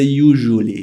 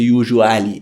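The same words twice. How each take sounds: First: It is said in a plain, ordinary accent. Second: It is said in a put-on Russian accent. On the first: "You don't say usually" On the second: "to fake a Russian accent"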